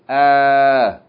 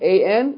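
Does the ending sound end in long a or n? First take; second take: long a; n. First: The ending is a long a with no n. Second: The ending is a short a followed by n. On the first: The reader stops on the word. The speaker calls it right. "you pronounce it fatta aleph" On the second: The reader keeps reading without stopping. The speaker calls it wrong. "instead of pronouncing it as a tanween"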